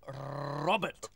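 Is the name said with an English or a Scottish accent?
Scottish. The name is said with a Scottish accent. The speaker calls it right. "It's Robert"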